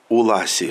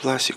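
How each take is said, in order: First: The name is said in an imitated dialect-like way. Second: The name is said in the standard way.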